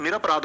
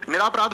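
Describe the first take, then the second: First: निरपराध with a short a after र; correct short-vowel form. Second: निरापराध with a long aa after र; wrong long-vowel form. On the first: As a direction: say निरपराध, keeping "ra" short before "pa". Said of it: "क्या होता है?". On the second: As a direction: say निरापराध, stretching the second syllable to "raa". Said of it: "नहीं जी दोस्त". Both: Shown as a demonstration.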